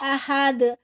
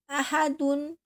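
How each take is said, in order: First: The final d is bounced, with no ending. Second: The word ends with an added -un sound. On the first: The reading stops on this word. "Ahad dipantulkan karena diwakafkan" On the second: The reading continues into the next word. "Tapi kalau diwasol"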